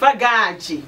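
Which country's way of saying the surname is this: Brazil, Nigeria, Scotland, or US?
Brazil. The surname is said the Brazilian way. "when I lived in Brazil"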